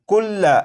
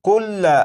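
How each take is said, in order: No difference in how they are said.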